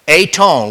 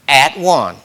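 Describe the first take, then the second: First: It is said as one blended word. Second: It is said as two separate words. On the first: "that's the way we say it" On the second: "but it's really at one"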